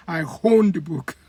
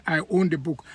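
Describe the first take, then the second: First: "I own the book" with a breathy H before "own"; Yoruba added H. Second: Said in the usual way. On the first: Shown as a demonstration. Yoruba speaker saying own as hone. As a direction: slip an H in: hown. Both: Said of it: "Own is, becomes hone".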